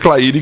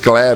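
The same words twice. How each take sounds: First: The name is pronounced the Portuguese way. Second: The name is pronounced the English way. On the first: This is how the listener says her own name. The speaker calls it right. "existe a Claire que sou eu" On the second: The host pronounced the name from habit with English words. The speaker calls it wrong. "eu estou acostumado com as palavras em inglês"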